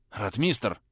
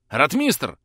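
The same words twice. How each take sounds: First: Breathy, half-voiced call of a name; exhaled call. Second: Louder urgent call of a name. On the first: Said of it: "выдохнул Трубецкой". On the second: Acted. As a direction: call out into the dark. Calling out in the dark.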